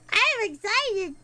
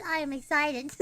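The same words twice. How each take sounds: First: Louder excited repeat. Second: Low-pitched excitement. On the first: Repeats it louder after laughing. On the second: First take, low before laughing. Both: Real, not acted.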